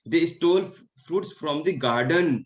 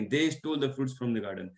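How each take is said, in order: First: The word garden carries the main stress. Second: The word they carries the main stress. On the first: They stole it from the garden. "तो उन्होंने garden से fruits को चुराया है" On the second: They stole it, not us. "हो सकता है कि हमने नहीं, उन्होंने"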